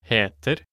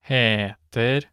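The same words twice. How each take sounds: First: It is said at normal speed. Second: It is said slowly.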